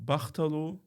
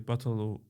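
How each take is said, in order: First: The h sound in the middle is clearly heard. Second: The h sound in the middle is barely heard. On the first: This is the form used in another dialect. "it's similar like Bachtalo" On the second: This is the form used in the speaker's own dialect. "we don't pronounce it uh, so much"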